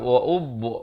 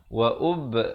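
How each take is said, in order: First: The vowel is said with rounded lips. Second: The vowel is said with flat, spread lips. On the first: The speaker calls it wrong. "jangan bulatkan wa'ub. Itu tak betul ya" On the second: The speaker calls it right. "Yang betulnya"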